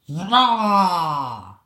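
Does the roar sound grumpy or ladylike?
ladylike. The roar sounds light and ladylike.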